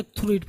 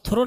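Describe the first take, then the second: First: "through it" with one-syllable "throo"; pronounced "throo it". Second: "through" misread with two syllables, "tho-ro"; mispronounced as "thoro". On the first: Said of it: "through it पढ़ेंगे". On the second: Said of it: "इसको आप through नहीं पढ़ेंगे". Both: Shown as a demonstration.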